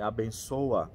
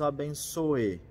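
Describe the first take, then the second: First: The word ends with an 'a' vowel sound. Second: The word ends with an 'e' vowel sound. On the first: The speaker calls it wrong. "Para a gente não falar, é abençoa" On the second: The speaker calls it right. "Deus nos abençoe"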